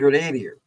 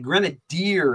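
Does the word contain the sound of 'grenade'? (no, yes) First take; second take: yes; no. First: The word sounds like 'grenade' plus an ending. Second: The word does not sound like 'grenade' inside. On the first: This is how the speaker always said it growing up. "because it's based off the word grenade" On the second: This is the official pronunciation used now. "is how they, they say they pronounce it now"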